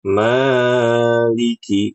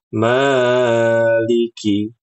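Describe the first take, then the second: First: The long vowel is stretched out too far. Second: The long vowel is stretched out too far.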